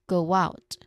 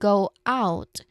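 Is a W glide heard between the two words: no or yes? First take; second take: yes; no. First: A small W sound links the two vowels. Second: The two vowels are said without a linking sound. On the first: "you say go out. ... There's a presence of W in there" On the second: "instead of saying go out"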